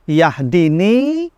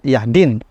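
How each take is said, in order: First: The word ends with a lengthened final vowel. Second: The word ends short, without a long final vowel. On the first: The speaker is safe and his self is shown. "muncul kata akunya" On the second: The speaker is in danger and his self is not shown. "menjadi pendek dibaca dan tidak ada mad di sana"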